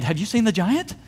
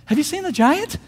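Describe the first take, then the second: First: Said in the usual way. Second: Much higher, agitated repeat; agitated question. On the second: Acted. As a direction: ask it high, all worked up.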